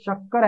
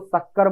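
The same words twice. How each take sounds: First: The word begins with an sh sound. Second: The word begins with an s sound. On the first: "शक्कर के श" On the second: "श को स बोलती है"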